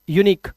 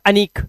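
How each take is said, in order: First: The word begins with a 'yoo' sound. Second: The word begins with a short 'uh' sound. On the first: The speaker calls it right. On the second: The speaker calls it wrong. "Not अनिक"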